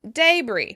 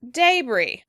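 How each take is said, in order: No difference in how they are said.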